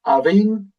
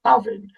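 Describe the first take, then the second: First: Avin stretched with the weight on its last syllable; wrong second-syllable stress. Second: Avin stressed at the front; first-syllable stress. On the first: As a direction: lean hard on the end of Avin. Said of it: "It's not Avin". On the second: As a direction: punch the first syllable of Avin, let the second drop. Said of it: "the emphasis on the first". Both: Shown as a demonstration.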